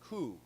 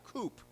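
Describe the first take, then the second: First: The word ends on a vowel, no P. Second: The word ends with a P sound. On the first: The speaker calls it right. "we don't pronounce the P" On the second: The speaker calls it wrong. "not coop"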